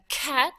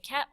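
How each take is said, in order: First: The k sound is crisp and strongly stressed. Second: The k sound is soft and ordinary. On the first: "or I could really stress the k" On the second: "I could say cat"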